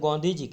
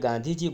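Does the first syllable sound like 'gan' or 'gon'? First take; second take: gon; gan. First: The first syllable has an 'o' vowel. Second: The first syllable has an 'a' vowel. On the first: This is a local dialect form. "ગુજરાતમાં તમે જાઓ તો ગોંધીજી" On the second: This is the usual everyday form. "આપણે ગાંધીજી બોલીએ"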